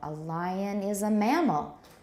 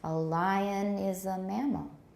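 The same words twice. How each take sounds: The two takes are said the same way.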